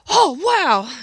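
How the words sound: The exclamation sounds spontaneous and genuinely surprised. The surprise is real and in the moment. The speaker calls it right. "natural result or reaction"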